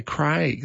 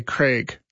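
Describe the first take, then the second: First: "Craig" with a long ay, as in vague; proper pronunciation. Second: "Craig" with a short vowel, rhyming with Greg; American mispronunciation. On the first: Host showing what Americans can't say, properly pronounced "Craig". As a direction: say "Craig" with a full ay vowel. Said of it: "they can't say Craig". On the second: Host showing how Americans say it, mispronounced "Craig". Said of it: "they can't say Craig. They say Craig". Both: Shown as a demonstration.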